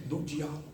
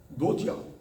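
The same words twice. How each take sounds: First: Soft answer. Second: Said in the usual way. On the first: Shown as a demonstration. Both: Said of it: "Mas através do quê?".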